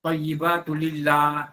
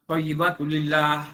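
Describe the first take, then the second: First: Thayyibatu lillah slowed, with the final lillah held; careful Thayyibatu lillah; contrast recitation. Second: Thayyibatu lillah said at normal speed; quicker Thayyibatu lillah for comparison; brisk Thayyibatu lillah; second take. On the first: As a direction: lean into the end of lillah. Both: Shown as a demonstration. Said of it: "Apa beza dia?".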